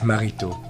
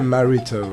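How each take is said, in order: First: The name is said with a French accent. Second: The name is said with an English accent. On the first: "with the proper French accent" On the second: "you can say Marito. It's okay to me"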